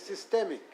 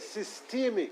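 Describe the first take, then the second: First: The middle vowel is a short E sound. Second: The middle vowel is a long E sound. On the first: "And you say systemic" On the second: "A long E sound"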